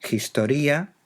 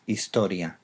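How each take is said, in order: First: "Historia" opened with a J sound, higher and rising; Greek aspirated H. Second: Said in the usual way. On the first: Shown as a demonstration. Teacher giving the Greek source word, aspirated H in "Historia". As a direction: pronounce "Historia" as Greek, breathy J sound at the start. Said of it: "una aspiración leve en latín". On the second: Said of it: "Todos ellos con H inicial".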